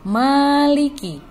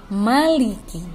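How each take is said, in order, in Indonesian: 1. Vokal pertama dibaca panjang. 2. Vokal pertama dibaca pendek. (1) "Mim di sini tidak boleh dibaca panjang. Seperti ini contohnya" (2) "yang benar bacaannya adalah maliki"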